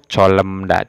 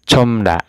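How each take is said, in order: First: An l and an m come before da. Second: Only an m comes before da. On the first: The speaker calls it wrong. "atau colemda, tidak" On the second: The speaker calls it right. "Dibacanya itu comda ya"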